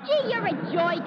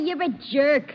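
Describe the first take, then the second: First: Jerk said as "joik", higher on the gee; Brooklyn OY vowel. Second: Jerk said carefully with an ER vowel; corrected pronunciation. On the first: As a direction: insult him with jerk turned into "joik". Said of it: "It's not jerk. It's jerk". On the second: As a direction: throw it back with jerk in standard ER. Repeats it with his corrected vowel. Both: Acted.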